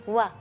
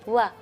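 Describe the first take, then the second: The two takes are said the same way.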